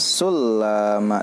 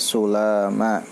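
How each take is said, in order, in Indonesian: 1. Bunyi l digandakan dan ditahan. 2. Bunyi l pendek dan ringan. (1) "sanes sulama" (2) "tapi sulama"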